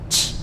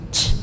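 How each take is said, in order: First: The consonant has a strong audible puff of air. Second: The same.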